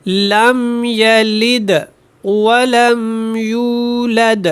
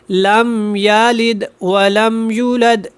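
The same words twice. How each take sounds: First: لم یلد ولم یولد drawn out, و clear; slow correct recitation. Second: لم یلد ولم یولد run together, و swallowed; hurried wrong reading. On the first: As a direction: recite each word fully. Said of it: "دیکھیے گا". (آہستہ درست تلاوت) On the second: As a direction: rush it as careless readers do. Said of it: "جلدی میں ایسے پڑھ دیا جاتا ہے". (جلدی میں غلط پڑھنا) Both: Shown as a demonstration.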